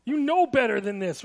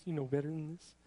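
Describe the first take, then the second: First: Stern parent. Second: The parental line repeated much softer and lower; quiet quoted phrase. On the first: Parent scolding a child, firm and reproachful. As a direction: scold like a parent who has said it before. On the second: Preacher quoting parents to the congregation, softly and low. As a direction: murmur it as if to yourself. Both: Retold or imitated. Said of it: "a common statement from parents".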